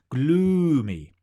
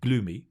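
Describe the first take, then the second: First: The long vowel is big and exaggerated. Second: The long vowel is small and reduced. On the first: The speaker calls it right. "make your sounds big" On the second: The speaker calls it wrong. "your sounds go small"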